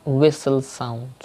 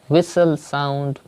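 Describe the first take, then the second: Both takes have the same delivery.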